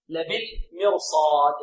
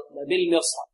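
First: Slow لبالمرصاد, full r and a long held vowel before the final d; heavy ra. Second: Said in the usual way. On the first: Shown as a demonstration. Teacher recites the fifth example word, slow heavy ra in لبالمرصاد. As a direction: linger on the saad of لبالمرصاد. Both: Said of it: "فهنا الراء تفخم".

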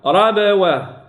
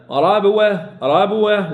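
First: Slow ربوة with echoed b before w; qalqala then waw. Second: Quick ربوة with b run into w; no qalqala. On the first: Teacher correcting students, slow bounced baa. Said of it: "قلقلة ثم الواو". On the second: Teacher showing the error to avoid, b merged into waw. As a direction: say ربوة without bouncing the b, as a mistake. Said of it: "لا". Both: Shown as a demonstration.

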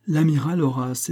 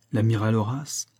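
First: "l'amiral Horace" affirmed, higher than the question; proud confirmation. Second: "L'amiral Horace" as a question, rising at the end. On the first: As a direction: announce "l'amiral Horace" firmly, without questioning. Confirms, starting a proud eulogy. («l'amiral Horace», affirmation fière) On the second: Boy asks who is meant. («L'amiral Horace», ton interrogatif montant) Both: A narrator's reading.

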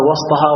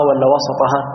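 First: وسطها with a silent-vowel seen, wasT-haa; sukun on the seen. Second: وسطها with an open seen, wa-sa-Ta-haa; fatha on the seen. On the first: Teacher asking which reading is right, seen unvowelled in وسطها. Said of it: "وإسكان السين". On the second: Teacher offering the second reading, seen opened in وسطها. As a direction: put a short a after the s in وسطها. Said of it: "فتح السين". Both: Shown as a demonstration.

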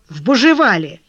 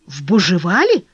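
First: «Бужевале» falling at the end; matter-of-fact statement. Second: «Бужевале» rising sharply into a question; astonished echo question. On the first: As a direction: state it firmly, closing on «Бужевале». Collar states the place. (утвердительно, с падением на «Бужевале») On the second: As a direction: echo it in disbelief, lifting «Бужевале». Leon echoes the place, astonished. (удивлённый переспрос с подъёмом на «Бужевале») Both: A narrator's reading.

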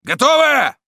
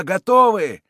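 First: Very high, loud questioning command; full-lung bellow. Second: Loud, high reply, falling at the end; crowd's answer. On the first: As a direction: roar it to check the troops are ready. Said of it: "оравшего во всю силу". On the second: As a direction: call back that all are ready. Mob answers its commander. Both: A narrator's reading.

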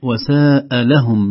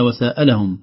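First: وساء لهم with a long held "saaa" before a separate "lahum"; correct long reading. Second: وساء لهم quicker, run together like "wa-sa'alahum", he asked them; run-together misreading. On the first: Teacher giving the intended meaning, slow drawn-out وساء لهم. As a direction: draw out ساء slowly, then لهم. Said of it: "المعنى المقصود الصحيح". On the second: Teacher showing how it turns into asking, joined وساء لهم. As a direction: shorten ساء and join it to لهم. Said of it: "تصبح كأنه ساء لهم". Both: Shown as a demonstration.

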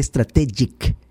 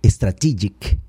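First: Strategic drawn out as "es-tra-TEH-jik"; president's mispronunciation. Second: Strategic as "stra-TEE-jik"; correct English pronunciation. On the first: Retold or imitated. Commentator quoting the president's error, strategic said "es-tra-TEH-jik". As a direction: say strategic slowly with "TEH" stressed. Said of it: "dice strategic". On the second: Shown as a demonstration. Commentator correcting the president, strategic pronounced "stra-TEE-jik". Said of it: "en lugar de".

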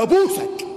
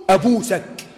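First: High, eager mock cry; imitating the man's eager plea; excited old man. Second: Said in the usual way. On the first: Excited man rushes at the sheikh. (تقليد رجل متحمس بصوت عالٍ)

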